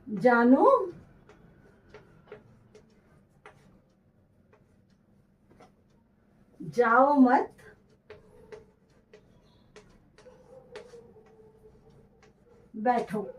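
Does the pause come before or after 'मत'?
after. The pause comes after 'मत', before 'बैठो'.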